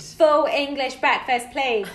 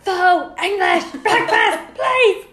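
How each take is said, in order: First: It is said at normal, quieter volume. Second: It is said louder, almost shouted.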